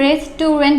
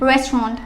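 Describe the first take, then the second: First: The word is said with three syllables. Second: The word is said with two syllables. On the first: The speaker calls it wrong. "এখানে তিনটা syllable চলে আসছে" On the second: The speaker calls it right. "এখানে only দুইটা syllable"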